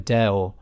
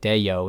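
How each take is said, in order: First: The vowels join directly with no glide. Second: A Y glide links the two vowels. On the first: The speaker calls it right. "if you were to speak it properly, it sounds like a Deo, and it goes from E to O with no Y in the middle" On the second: The speaker calls it wrong. "if you were just to speak it in an American accent, it kind of sounds like Deo, and you're putting a little Y sound in it"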